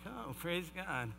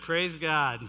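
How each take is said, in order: First: It is said with hesitant reluctance. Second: It is said with cheerful enthusiasm.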